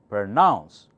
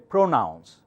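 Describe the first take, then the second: First: The stress is on the second syllable. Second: The stress is on the first syllable. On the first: The speaker calls it right. "Pr softer, nouns louder" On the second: The speaker calls it wrong. "you cannot say"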